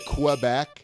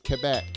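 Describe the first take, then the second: First: Quebec is said with an American English pronunciation. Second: Quebec is said with a French pronunciation. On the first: The speaker calls it wrong. "Most Americans say" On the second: The speaker calls it right. "it's Quebec"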